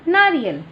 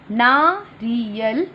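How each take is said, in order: First: Said in the usual way. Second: Put-on teacher models नारियल slowly for children. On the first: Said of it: "normal take". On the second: Shown as a demonstration. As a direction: stretch नारियल slowly, rising. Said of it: "slow model".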